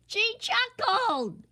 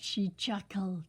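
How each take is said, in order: First: High, slow, wailing repeat of chuckled; wailing king. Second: Said in the usual way. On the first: A narrator's reading. The king wailing back at Sunshine, high slow wail. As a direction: stretch chuckled out in a long wail. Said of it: "wailed the king". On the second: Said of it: "She chuckled, wailed".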